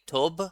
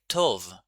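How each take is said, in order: First: The word ends with a b sound. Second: The word ends with a v sound. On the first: The speaker calls it wrong. "we don't say tob" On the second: The speaker calls it right. "we say tov"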